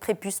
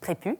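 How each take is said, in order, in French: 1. Le son final s est prononcé. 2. Le son final s est omis. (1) "ça s'écrit prépuce" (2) "mais ça se dit prépu"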